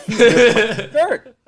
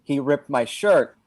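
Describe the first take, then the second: First: High, loud, slow outraged cry through a laugh; slow shrieking outrage, half laughing; real outraged yell. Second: Slow, only slightly raised complaint; understated mock yell; mild mock scream. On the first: Retold or imitated. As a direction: wail it like you truly mean it. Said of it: "But I really mean it". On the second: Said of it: "so I'm just screaming".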